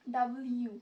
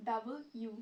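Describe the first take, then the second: First: W said as ডাব্লিউ, loud and squeezed into one word; a loud common mistake: ডাব্লিউ; ডাব্লিউ blurted as the wrong version. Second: W said as ডাবল ইউ, two clear parts; ডাবল ইউ spelled out as the right version; correct W. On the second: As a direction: correct it carefully: ডাবল, then ইউ. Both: Shown as a demonstration. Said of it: "ডাব্লিউ না".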